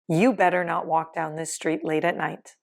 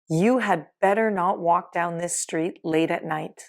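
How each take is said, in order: First: The word 'had' is left out entirely. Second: The word 'had' is said in full.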